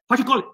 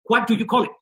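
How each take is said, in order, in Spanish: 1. La frase se dice rápido, con las palabras unidas. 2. La frase se dice a un ritmo normal, con cuidado.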